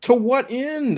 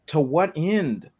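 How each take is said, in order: First: Exasperated question shooting up high; high-pitched exasperation. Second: Slow, exasperated question; drawn-out exasperation. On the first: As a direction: pitch TO WHAT END way up in disbelief. Repeats the question, more exasperated. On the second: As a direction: stretch out TO WHAT END. Exasperated at the game's premise. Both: Real, not acted.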